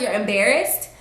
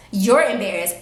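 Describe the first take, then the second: First: Rising disbelieving "You're embarrassed?"; incredulous. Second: Falling, flat "You're embarrassed."; flat sarcastic echo. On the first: To her date complaining, incredulous question. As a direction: throw his word back in disbelief. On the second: To her date, dry sarcastic echo. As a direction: repeat it dryly back at him. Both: Retold or imitated.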